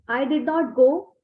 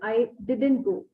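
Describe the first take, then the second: First: 'Did not' is said as two full words. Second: 'Did not' is contracted into one syllable group. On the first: "People say like this" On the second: "You can say"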